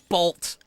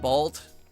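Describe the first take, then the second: First: The word is said with strong, energetic emphasis. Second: The word is said plainly without extra force. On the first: "But if you emphasize it" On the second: "you just say, like"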